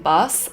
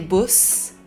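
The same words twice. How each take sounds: First: The vowel is said in a standard accent. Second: The vowel is given a regional accent. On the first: "instead of saying bus" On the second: "they would say bus"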